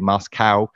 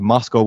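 First: Moscow is said with an American pronunciation. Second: Moscow is said with a British pronunciation.

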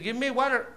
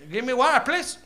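First: It is said in an American accent. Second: It is said in an African accent.

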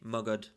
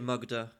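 First: The name ends with a consonant sound. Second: The name ends with a final vowel sound. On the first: "some people say Magad" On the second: "Some people say Magadha"

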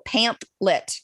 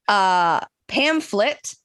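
First: The middle consonant sounds like a hard p. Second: The middle consonant sounds like an f. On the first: The speaker calls it wrong. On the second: The speaker calls it right.

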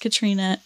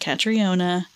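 First: The name is said with three syllables. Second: The name is said with four syllables. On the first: The speaker calls it right. "it is Katrina" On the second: The speaker calls it wrong. "not Catriona"

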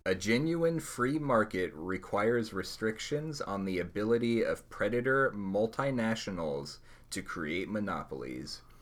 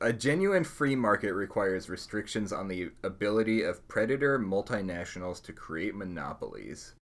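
First: The sentence is read slowly. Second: The sentence is read at normal speed.

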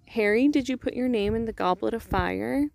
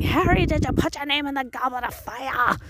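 First: Dumbledore asks it calmly and quietly. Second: Dumbledore asks it angrily and intensely.

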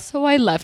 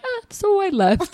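First: It is said flatly and calmly. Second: It is said with exaggerated drama.

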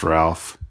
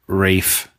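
First: The name is said as 'Ralph'. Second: The name is said as 'Rafe'. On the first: The speaker calls it wrong. "not pronounced Ralph" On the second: The speaker calls it right. "Academy Award nominee Rafe"

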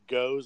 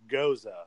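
First: The word ends with an s sound. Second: The word ends with an uh sound. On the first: "it's pronounced like goes, like G-O-E-S" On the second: "but with a U-H at the end, so it's Goza"

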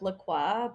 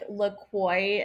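First: The name is said with a Canadian pronunciation. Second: The name is said with an American pronunciation. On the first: "instead of La Croix" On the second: "how Americans say like La Croix"

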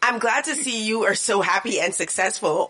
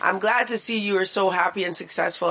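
First: It is read in a snide, condescending tone. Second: It is read in a plain, neutral tone.

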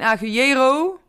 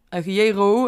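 First: The stress falls on a syllable other than 'je'. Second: The stress falls on the syllable 'je'. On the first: The speaker calls it wrong. "Dus het is geen agujero" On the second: The speaker calls it right. "de klemtoon op de voorlaatste lettergreep komt. Op de E"

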